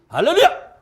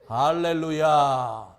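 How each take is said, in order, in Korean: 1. 이 단어는 훨씬 더 빠르게 말해졌어요. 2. 이 단어는 느린 속도로 말해졌어요. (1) "더 빨라져요" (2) "이렇게 하는 거야"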